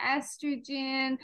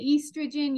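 First: "estrogen" with a short E start, ESS-truh-jen; the listeners' pronunciation. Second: "estrogen" with a long EE start, EES-truh-jen; Irish pronunciation. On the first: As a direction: say "estrogen" drawn out, opening on "ess". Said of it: "you say estrogen". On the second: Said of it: "or I say estrogen". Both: Shown as a demonstration.

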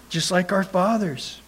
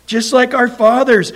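First: Said in the usual way. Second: "just like our fathers" said louder and higher, pressing down; emphatic repeat. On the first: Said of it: "repeated scripture line". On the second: Shown as a demonstration. Preacher hammering the congregation with "just like our fathers", loud and insistent. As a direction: drive "just like our fathers" home with force. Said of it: "repeated scripture line, emphatic".

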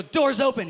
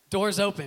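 First: High, very loud commanding call. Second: Louder, slightly raised command; trial voice command. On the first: Newcomer commanding the train door, loudly earnest. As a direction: call it out to make the door obey. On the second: Newcomer trying a voice command on the train, earnest. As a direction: tell the train what to do. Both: Retold or imitated.

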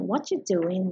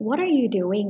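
First: "What you doing?" with "are" dropped and merged; relaxed reduced "What you doing?"; reduced speech. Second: Said in the usual way. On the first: Shown as a demonstration. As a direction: glide "What you" together with no R. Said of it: "รวบเสียง R กับ U". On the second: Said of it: "หรือเวลาจะถาม".

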